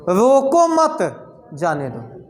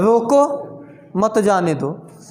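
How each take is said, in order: First: The pause comes right after मत. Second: The pause comes right after रोको.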